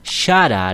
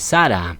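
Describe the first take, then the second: First: The name begins with an sh sound. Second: The name begins with a plain s sound. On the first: The speaker calls it right. "la fonética correcta de la esposa de Abraham es Shara" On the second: The speaker calls it wrong. "No se dice Sara"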